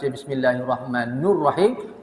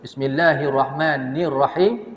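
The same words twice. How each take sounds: First: The syllable before Rahim is said as 'nu'. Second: The syllable before Rahim is said as 'ni'. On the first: The speaker calls it wrong. "baris depan nu itu, maka uh, salah" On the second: The speaker calls it right. "sepatutnya ni Rahman"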